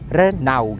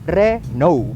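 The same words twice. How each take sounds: First: The second vowel sounds like 'au'. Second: The second vowel sounds like 'ou'. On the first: The speaker calls it wrong. "bukan Renault" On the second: The speaker calls it right. "A U-nya itu dibaca bukan sebagai A U, tapi sebagai O U"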